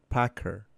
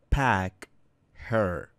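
First: The two words run together without the h sound. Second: The two words are said separately with a pause.

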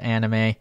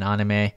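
First: It is said with an English pronunciation. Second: It is said with a Japanese pronunciation.

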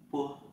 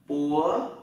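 First: It is short and light with no force. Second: The pitch rises over two beats. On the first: "thế còn thanh nhẹ, một nhịp không quát" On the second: "đó là thanh hai đấy"

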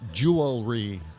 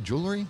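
First: Every syllable is pronounced fully and carefully. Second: The middle syllable is reduced in casual speech. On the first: The speaker calls it wrong. "They say it in a very unreal way. They go" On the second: The speaker calls it right.

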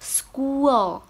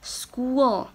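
Both takes have the same delivery.

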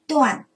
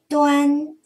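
First: The syllable has a sharply falling tone. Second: The syllable has a high level tone. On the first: "四声断" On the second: "一声端"

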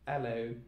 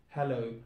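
Both takes have the same delivery.

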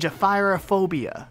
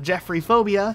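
First: It has three syllables before 'phobia'. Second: It sounds like 'Jeffrey' followed by 'phobia'. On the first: The speaker calls it right. "It's actually Jephyrophobia" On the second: The speaker calls it wrong. "No, it's not Jeffrey Phobia"

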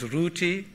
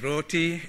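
First: The first vowel is raised to a U sound. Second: The first vowel is an O sound. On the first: This is how locals say it, probably from Bengali. "The raising of the O vowel to U" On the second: This is how the word is said elsewhere. "no one says roti"

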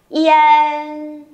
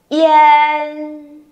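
Both takes have the same delivery.

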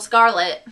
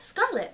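First: The name is said harshly with a hard first part. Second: The name is said softly and smoothly. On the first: The speaker calls it wrong. "some people go Scarlet or Scarlet, and I don't think it's as pretty. It's really harsh" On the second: The speaker calls it right. "especially when you say it like that"

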